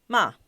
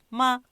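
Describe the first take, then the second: First: The pitch moves up or down during the syllable. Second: The pitch stays level and does not change. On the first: "sube y baja, o baja, sube" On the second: "muy neutro que no cambia"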